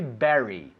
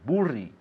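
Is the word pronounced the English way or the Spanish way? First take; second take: English; Spanish. First: The word is said with English pronunciation. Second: The word is read with Spanish letter sounds. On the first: The speaker calls it right. "But we say bury" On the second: The speaker calls it wrong. "which I suppose in Spanish will be burri"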